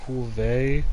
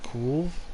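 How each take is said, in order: First: The name has two syllables, ending in 'ay'. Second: The name has one syllable, with no final vowel. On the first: The speaker calls it wrong. "as you're pronouncing it, does not exist?" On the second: The speaker calls it right. "The proper pronunciation would be cool, kind of like curve"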